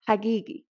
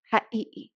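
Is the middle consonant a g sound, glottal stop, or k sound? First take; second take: g sound; glottal stop. First: The consonant is pronounced as a g sound. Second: The consonant is pronounced as a glottal stop. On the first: "Some areas are going to pronounce it as a g" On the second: "can be pronounced as this uh, in certain regions"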